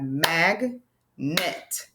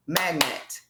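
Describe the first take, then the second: First: "mag, net" with a clear pause between; syllable by syllable. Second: Said in the usual way. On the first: Shown as a demonstration. Teacher shows word parts, "mag, net" slowly apart. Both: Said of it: "word parts that we hear in words".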